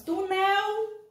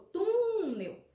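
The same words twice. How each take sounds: First: Túnel wrongly said tu-NEL, high and drawn out; stress on last syllable. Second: Túnel with TU held long, then falling; stress on first syllable. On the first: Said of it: "Como é que nós falamos?". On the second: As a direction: stretch the TU of túnel slowly. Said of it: "a gente achou a sílaba tônica". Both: Shown as a demonstration.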